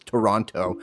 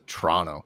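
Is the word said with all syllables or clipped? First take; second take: all syllables; clipped. First: All three syllables are pronounced clearly. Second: The word is clipped, with sounds dropped. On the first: This is the careful form hardly anyone uses. "Nobody says Toronto" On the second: This is the lazy everyday form. "Everyone just says Toronto"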